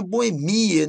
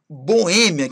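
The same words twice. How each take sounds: First: "boemia" stressed bo-e-MI-a. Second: "Boêmia" stressed bo-Ê-mia. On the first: Teacher quoting the popular form, "boemia" stressed on MI. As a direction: hit MI in "boemia". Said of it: "Eu gosto de falar boemia". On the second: Teacher correcting to the standard form, "Boêmia" stressed on Ê. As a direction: firmly hit the Ê of "Boêmia". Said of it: "Não". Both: Shown as a demonstration.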